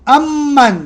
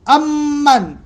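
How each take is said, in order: First: The m sound is doubled and held long. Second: The same.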